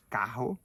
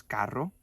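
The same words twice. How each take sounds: First: Cajo with a throaty h-like rr, Brazilian way; Portuguese-style carro. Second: Carro with a rolled trilled rr; Spanish carro. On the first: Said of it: "cajo en portugués". (carro a la brasileña, con erre gutural) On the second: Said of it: "En español decimos carro". (carro con erre vibrante) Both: Shown as a demonstration.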